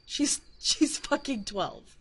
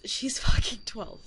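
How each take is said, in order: First: "fucking" stressed, "twelve" slow and falling; slow emphatic repeat. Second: Said in the usual way. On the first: Real, not acted. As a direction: lean hard on "fucking", drag out "twelve".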